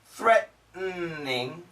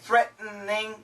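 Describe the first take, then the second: First: All syllables are pronounced carefully. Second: A middle sound is skipped in quick speech. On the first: "We should say threatening" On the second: "But we usually say threatening"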